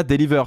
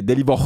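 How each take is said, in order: First: Said in the usual way. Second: "deliver" with its last syllable as a broad "-vor"; caricatured accent turning "deliver" into "deli-VOR". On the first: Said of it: "c'est pas deliver". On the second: Shown as a demonstration. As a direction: say "deliver" ending in a heavy, open "-vor". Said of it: "c'est deliver".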